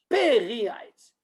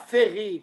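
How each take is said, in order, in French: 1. Le mot commence par un son p. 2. Le mot commence par un son f. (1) "le dagesh, il doit être dans le p" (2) "Pas ferry"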